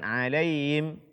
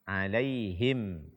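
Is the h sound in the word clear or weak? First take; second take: weak; clear. First: The h sound is weak and barely heard. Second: The h sound is pronounced clearly. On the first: The speaker calls it wrong. "bukan alaihim" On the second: The speaker calls it right.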